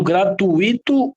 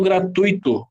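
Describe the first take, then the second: First: "gratuito" with a separate, stressed I; hiatus pronunciation. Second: "gratuito" with UI as one glide; diphthong pronunciation. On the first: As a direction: say "gratuito" as gra-tu-Í-to. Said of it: "eu falo gratuito ou eu falo". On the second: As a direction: say "gratuito" as gra-TÚI-to. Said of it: "ou separando a letra I, ou se-, ou juntando". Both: Shown as a demonstration.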